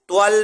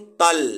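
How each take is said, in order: First: The lips are rounded on the first consonant. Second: The lips stay unrounded on the first consonant. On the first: The speaker calls it wrong. "ता पे होंठ को गोल नहीं करना है" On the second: The speaker calls it right. "त्वल नहीं तल"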